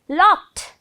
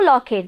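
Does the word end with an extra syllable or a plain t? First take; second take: plain t; extra syllable. First: The word ends with a plain t sound. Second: The ending is an extra syllable after k. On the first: The speaker calls it right. "last sound is to" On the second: The speaker calls it wrong. "No locket"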